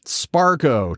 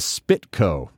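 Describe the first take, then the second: First: The first syllable sounds like spar. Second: The first syllable sounds like spit. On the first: "Sparco, too. Tons of oddball stuff" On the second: "what's up with the Spitco? No T in there"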